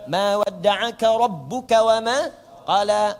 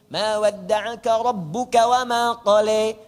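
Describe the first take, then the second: First: The final long vowels sound like 'a'. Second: The final long vowels sound like 'e'. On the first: "A a a a a" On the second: "dibaca orang Syria pakai imalah jadi e"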